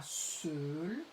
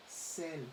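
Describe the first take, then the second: First: "seul" with a rounded eu sound, drawn out; "seul" said with eu, as the version to avoid; wrong vowel demo. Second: "celle" with an open è vowel; "celle" modelled softly with a clear è sound; correct open è. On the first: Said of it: "on dira pas seul". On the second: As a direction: say "celle" with è, not eu. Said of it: "on dira celle". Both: Shown as a demonstration.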